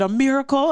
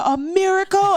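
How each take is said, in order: First: Higher, questioning rise; hopeful question, pitched up; tentative surprise. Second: Very high, loud exclamation; soaring, louder mock scream; retold joyful scream. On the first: Retold or imitated. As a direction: offer it as an amazed question. Retelling her first guess to doctor. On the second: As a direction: cry it out in overjoyed disbelief. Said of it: "I just started screaming".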